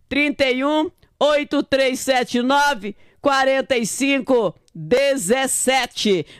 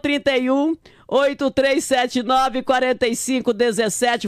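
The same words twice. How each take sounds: First: The number is said slowly. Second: The number is said at normal speed.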